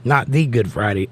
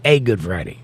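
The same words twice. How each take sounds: First: "the" leaned on as the special one; stress on THE. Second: "a" stressed, pitch falling lower. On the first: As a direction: stress the word "the" in "the Good Friday". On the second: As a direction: lean on "a" in "a Good Friday". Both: Shown as a demonstration.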